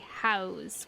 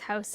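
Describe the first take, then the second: First: The word is said in a Jersey accent. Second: The word is said in a Canadian accent. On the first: "they say house with like an A" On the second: "Canadians say house. We live in a house"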